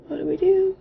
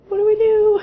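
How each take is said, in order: First: High, nervous panicked question; mock panic. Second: High, louder, half-crying panic; mock panicked cry. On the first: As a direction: voice the scared couple freezing up. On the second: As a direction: push the fear up to a whimper. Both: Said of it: "we're both just like".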